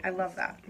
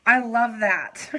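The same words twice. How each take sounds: First: Said in the usual way. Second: Drawn-out heartfelt I love that; louder and slower with feeling; slow, louder emphatic repeat. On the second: Real, not acted. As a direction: lean into it, stretched. Repeats touched line.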